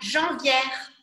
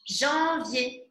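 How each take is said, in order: First: The word ends in an open 'yair' sound. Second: The word ends in a closed 'yay' sound. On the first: The speaker calls it wrong. "Je ne dis pas janvière. Non, non, non" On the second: The speaker calls it right. "Observez ici le son en et le son yé"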